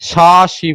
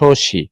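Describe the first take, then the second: First: The first vowel is an open a sound. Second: The first vowel is a rounded o sound. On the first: The speaker calls it wrong. "শাসি বলছি না" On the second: The speaker calls it right. "কিন্তু আমরা বলছি শশী"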